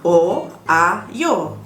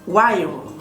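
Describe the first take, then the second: First: The vowels are said slowly as separate syllables. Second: The vowels are merged quickly into one glide. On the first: The speaker calls it wrong. "tak akan sebut perlahan-lahan o ayo" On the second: The speaker calls it right. "kita nak akan sebut laju-laju"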